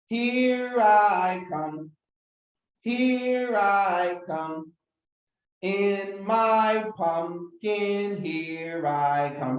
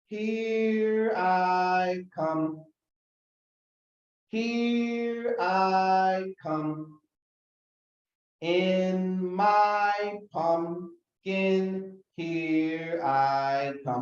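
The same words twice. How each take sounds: First: It is said a little faster. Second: It is said slowly.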